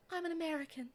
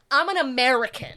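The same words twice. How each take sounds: First: Soft, higher, delicate voice; dainty, hushed imitation; Emma Watson. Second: Loud, punchy American delivery; big, forceful declaration; brash American. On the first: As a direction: say it gently and quietly, pitched up. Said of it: "a very softness to her voice". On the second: Shown as a demonstration. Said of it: "you gotta be like".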